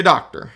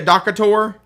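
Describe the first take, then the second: First: "doctor" in two clean syllables, DOC-tor; correct pronunciation. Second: "docator" with an inserted middle syllable, DOC-a-tor; mock wrong pronunciation. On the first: Instructor giving the right form after the joke, plain DOC-tor. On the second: Instructor comparing doctor to realtor, mock DOC-a-tor. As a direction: tease the error by saying "docator" as DOC-a-tor. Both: Shown as a demonstration.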